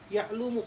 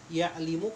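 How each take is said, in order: First: The vowel after the l is u. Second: The vowel after the l is i. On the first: "atau lu"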